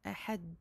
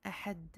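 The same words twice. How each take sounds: No difference in how they are said.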